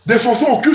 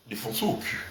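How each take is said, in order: First: Said in the usual way. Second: Much softer and much lower, barely voiced; nearly whispered. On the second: Shown as a demonstration. Repeating it for his audience, a hushed low murmur. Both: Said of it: "On va maintenant le défoncer au cul".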